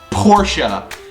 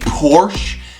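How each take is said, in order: First: It is said with the German pronunciation. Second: It is said with an American English reading. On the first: "In German, it is pronounced Porsche" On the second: "in English in the United States, saying Porsche might make sense by looking at the word"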